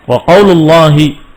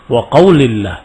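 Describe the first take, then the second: First: The vowel after the L is a u sound. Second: The vowel after the L is an i sound. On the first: The phrase starts a new statement as its subject. "dibacanya wa qaulullahi dengan dhammah di lam" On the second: The phrase is joined to the preceding word tauhid. "Disebutkan dengan jar, yani majrur"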